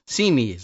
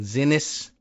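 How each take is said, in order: First: The name sounds like 'see' plus 'knees'. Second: The name does not sound like 'see-knees'. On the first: The speaker calls it right. "it's pronounced like C, S E A, knees, K N E E S" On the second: The speaker calls it wrong. "we've been saying Zinnis, maybe ... mispronouncing it"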